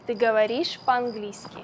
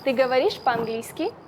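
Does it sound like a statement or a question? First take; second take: statement; question. First: It has flat statement intonation. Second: It has questioning intonation.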